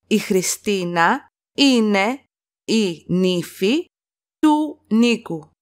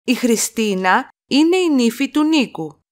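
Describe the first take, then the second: First: Slow chunked repeat. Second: Said in the usual way. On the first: Shown as a demonstration. Teacher to students, slow phrase-by-phrase model. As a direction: split into chunks with pauses between. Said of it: "teacher repeats sentence slowly in chunks". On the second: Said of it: "teacher models full sentence".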